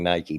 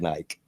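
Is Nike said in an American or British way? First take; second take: American; British. First: Nike is said with an American pronunciation. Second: Nike is said imitating a British pronunciation.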